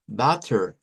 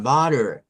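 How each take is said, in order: First: Butter with a hard, clear t in the middle; unflapped t. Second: Butter with a tapped, d-like middle; American flap T. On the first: Teacher showing what Americans don't say, hard-t butter. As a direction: release a true t in butter. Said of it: "No dicen butter". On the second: Teacher correcting to American usage, flapped butter. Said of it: "sino que dicen butter". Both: Shown as a demonstration.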